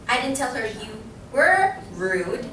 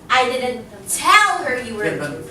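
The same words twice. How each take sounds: First: The word rude carries the stress. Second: The word tell carries the stress. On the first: Something else was said about the person. "I'm putting emphasis on what? The word rude" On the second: It was conveyed some other way. "I could have, you know, shouted it out or told somebody else"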